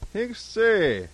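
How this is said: It is said in a friendly, jovial way.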